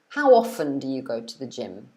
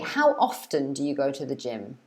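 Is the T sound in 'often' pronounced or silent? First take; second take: silent; pronounced. First: The T sound in often is silent. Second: The T sound in often is pronounced.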